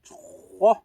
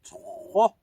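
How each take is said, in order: No difference in how they are said.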